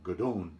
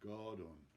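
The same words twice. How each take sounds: First: The stress is on the second syllable. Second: The stress is on the first syllable. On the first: The speaker calls it wrong. "not godon" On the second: The speaker calls it right. "The accent is on the first syllable of that word"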